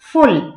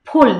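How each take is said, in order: First: The first sound is made without closing both lips. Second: The first sound is made with both lips together. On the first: The speaker calls it wrong. "আমার এক কলিগই ফ উচ্চারণ করে ফুল ফুল এরকম উচ্চারণ করে" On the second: The speaker calls it right. "দুইটা ঠোঁট একসাথে লাগবে"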